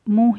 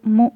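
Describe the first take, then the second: The two takes are said the same way.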